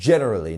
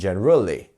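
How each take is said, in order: First: The stress is on the first syllable. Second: The stress is on a later syllable. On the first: The speaker calls it right. "we are pronouncing that gen much stronger" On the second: The speaker calls it wrong. "not generally"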